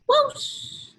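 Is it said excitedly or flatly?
excitedly. It is said loudly, with excitement.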